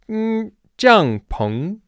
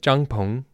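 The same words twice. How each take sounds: First: The tones start higher and dip much lower. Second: The tones move within a narrow, flatter pitch range. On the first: The speaker calls it right. "I need to start higher, go lower" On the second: The speaker calls it wrong. "you're going to naturally want to say it 帐篷"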